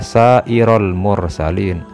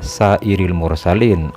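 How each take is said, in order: First: The vowel after the r is an a. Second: The vowel after the r is an i. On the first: The word is read as a direct object. The speaker calls it right. "Harusnya yang benar itu dibaca sairol mursalin" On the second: The word is read in the genitive case. The speaker calls it wrong. "dibaca sairil mursalin oleh Bapak Kiai tadi itu"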